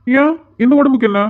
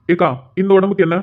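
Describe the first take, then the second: First: Raised, indignant question about his body; mock offended. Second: Said in the usual way. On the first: Grandson teasing his worried grandmother, mock offended. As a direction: playfully bristle at the grandmother's remark.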